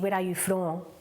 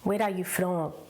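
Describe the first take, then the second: No difference in how they are said.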